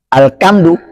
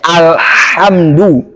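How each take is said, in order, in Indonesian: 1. Konsonan setelah 'al' adalah bunyi k. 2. Konsonan setelah 'al' adalah bunyi h. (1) "jangan bacanya al-kamdu" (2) "bacanya alhamdu"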